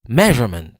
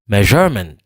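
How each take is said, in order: First: The stress is on the first syllable. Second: The stress is on the second syllable. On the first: The speaker calls it right. "C'est mais qui prononce plus fort que tout l'autre yo" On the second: The speaker calls it wrong. "Si m'ta prononce je a plus fort que tout l'autre yo"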